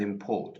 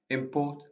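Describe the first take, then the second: First: PORT in "import" stressed, first syllable lighter; "import" with the beat on PORT; stress on second syllable. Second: IM in "Import" stressed, second syllable lighter; "Import" with the beat on IM; stress on first syllable. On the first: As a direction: lean on the end of "import", as im-PORT. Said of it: "or the second syllable". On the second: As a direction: hit the start of "Import", as IM-port. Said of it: "placing the stress on the first syllable". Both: Shown as a demonstration.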